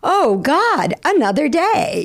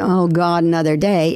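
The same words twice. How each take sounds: First: It sounds happy and full of energy. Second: It sounds gloomy and low in energy.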